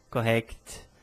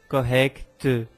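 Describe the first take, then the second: First: The final t is pure, without vowel. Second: A vowel sound follows the final t. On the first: The speaker calls it right. "mas sim" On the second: The speaker calls it wrong. "porque eu não falo"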